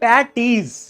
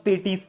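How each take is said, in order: First: The first vowel sounds like the 'a' in 'pat'. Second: The first vowel sounds like the 'e' in 'pet'. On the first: This is how people in Delhi say it. "Delhi आया ... इनको तो पैटीज बोलते हैं" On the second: This is how people in the speaker's hometown say it. "हमारे शहर में इसको पेटीज बोला जाता था"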